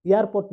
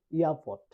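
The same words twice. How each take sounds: First: এয়ারপোর্ট with the r's sounded; R pronounced. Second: এয়ারপোর্ট with both r's dropped; silent R. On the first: (র উচ্চারণ করে এয়ারপোর্ট) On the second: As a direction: say এয়ারপোর্ট like "ia-pot". (র বাদ দিয়ে এয়ারপোর্ট) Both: Shown as a demonstration. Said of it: "আর এর উচ্চারণ হবে না".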